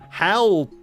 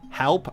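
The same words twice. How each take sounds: First: It sounds terrified, like a desperate shout. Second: It sounds calm and unafraid, like a question.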